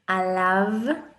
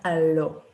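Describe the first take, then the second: First: The word ends with an 'av' sound. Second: The word ends with an 'o' sound. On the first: The speaker calls it right. "alav, and not alo" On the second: The speaker calls it wrong. "and not alo"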